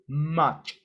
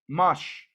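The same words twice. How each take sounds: First: The word ends with a sharp ch sound. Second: The word ends with a soft sh sound. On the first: The speaker calls it right. "The pronunciation is much" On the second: The speaker calls it wrong. "that's not the pronunciation"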